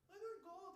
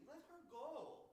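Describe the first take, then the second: First: Second take pushed up high; pleading higher. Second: Nicely. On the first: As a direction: beg it, pitch climbing. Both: Acted. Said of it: "I'm telling you this nicely".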